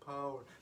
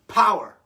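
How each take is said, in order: First: It is said quietly and weakly. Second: It is said loudly and powerfully.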